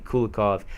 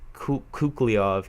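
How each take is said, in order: First: An l sound follows the first vowel. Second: A k sound follows the first vowel. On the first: The speaker calls it right. "when it's obviously Kulikov" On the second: The speaker calls it wrong. "I feel pretty stupid for uh, pronouncing that name Kukliov"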